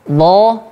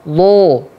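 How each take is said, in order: First: The lips stay relaxed and unrounded. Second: The lips are pushed forward and rounded. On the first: The speaker calls it right. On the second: The speaker calls it wrong.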